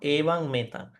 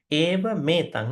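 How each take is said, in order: First: The first word ends in ng before m. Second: The two words join with a single m sound. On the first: The speaker calls it wrong. "not evang metang" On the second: The speaker calls it right. "it is actually one M. It is combined"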